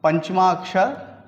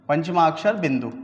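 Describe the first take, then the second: First: पंचमा अक्षर drawn out slowly, each syllable held; teacher slowing पंचमा अक्षर down for the class; slowly spelled out. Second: Said in the usual way. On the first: Shown as a demonstration. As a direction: stretch out पंचमा अक्षर so the pupils can copy it. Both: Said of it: "इसको बोलते हैं".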